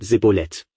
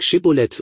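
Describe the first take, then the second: First: The word begins with a plain s sound. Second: The word begins with an sh sound. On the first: This form gives away the speakers' regional origin. The speaker calls it wrong. "sie sagen Sibboleth" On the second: This is the form the test demands. The speaker calls it right. "sag Shibboleth"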